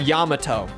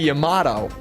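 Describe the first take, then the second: First: It has a plain, standard pronunciation. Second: It has an unusual, game-style pronunciation. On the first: The speaker calls it right. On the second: The speaker calls it wrong.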